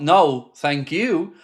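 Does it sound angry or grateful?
grateful. It sounds like warm, sincere thanks.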